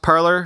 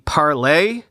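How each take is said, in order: First: It is pronounced like the English word parlor. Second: It is pronounced like the French word parler. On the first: The speaker calls it wrong. "are we sure it should be pronounced parler?" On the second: The speaker calls it right. "which means to speak or to talk in French"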